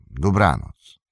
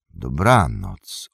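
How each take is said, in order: First: A curt, falling "Dobranoc" in the gatekeeper voice; gatekeeper's curt goodnight. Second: A slow, low "Dobranoc" drawn out and falling; travellers' reply. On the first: Gatekeeper dismissing the travellers, curt falling goodnight. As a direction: shut the talk down with a short "Dobranoc". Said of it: "Spytaj o niego Barlimana". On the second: Travellers answering the gatekeeper, slow low goodnight. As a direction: answer back slowly and deep with "Dobranoc". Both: Acted.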